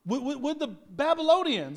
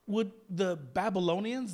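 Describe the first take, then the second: First: Louder insistent. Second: Said in the usual way. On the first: Acted. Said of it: "repeated louder". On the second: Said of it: "repeated line".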